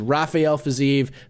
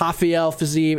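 First: Rafael is said in a non-Brazilian style. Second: Rafael is said in a Brazilian Portuguese style. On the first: The speaker calls it right. "It is Rafael Fiziev. Fiziev is not from Brazil" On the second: The speaker calls it wrong. "It's not Rafael Fiziev"

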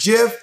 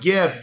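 First: The word begins with a soft J sound. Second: The word begins with a hard G sound. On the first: The speaker calls it right. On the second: The speaker calls it wrong.

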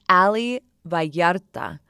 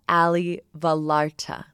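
First: The name is pronounced with Spanish sounds. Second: The name is pronounced with English sounds. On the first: The speaker calls it right. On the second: The speaker calls it wrong.

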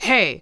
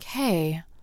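First: It is said loudly and boldly. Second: It is said softly and casually. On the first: The look is bold and attention-grabbing. "not like" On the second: The look is subtle and understated. "It's a little more like"

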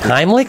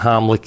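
First: The first syllable sounds like 'high'. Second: The first syllable sounds like 'home'. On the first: The speaker calls it right. "Yes, it's Heimlich" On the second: The speaker calls it wrong. "That's two homlicks"

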